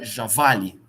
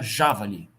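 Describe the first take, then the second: First: The stress is on the middle syllable. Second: The stress is on the first syllable. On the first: "Se ela fosse paroxítona" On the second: "Se ela fosse proparoxítona"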